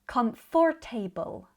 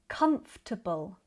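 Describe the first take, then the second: First: The ending sounds like the full word 'table'. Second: The ending is short and reduced, not 'table'. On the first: The speaker calls it wrong. "like they end in the word table" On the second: The speaker calls it right. "In British English, we would say"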